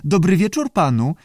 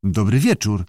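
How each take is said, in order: First: High squawky creature greeting; screechy voice. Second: Understated puzzled reply; mildly surprised. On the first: Unseen salamander greets the director, screechy. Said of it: "skrzekliwie powiedział". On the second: Director answers an unseen voice, mildly surprised. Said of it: "odpowiedział zdziwiony dyrektor". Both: A narrator's reading.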